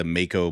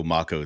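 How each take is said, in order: First: "Mako" as MAY-ko; long-A pronunciation. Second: "Mako" as MAH-ko; broad-A pronunciation. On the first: Gamer comparing disputed pronunciations, "Mako" as MAY-ko. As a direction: say "Mako" with the vowel of make. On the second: Gamer comparing disputed pronunciations, "Mako" as MAH-ko. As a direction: say "Mako" with the vowel of father. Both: Shown as a demonstration. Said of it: "it's like the Mako Mako thing".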